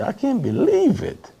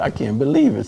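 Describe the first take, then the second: First: Amazed. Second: Said in the usual way. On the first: Retold or imitated. Reacting to news about prison events.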